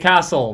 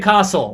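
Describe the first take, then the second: First: It is said with an American accent. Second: It is said with an Australian accent.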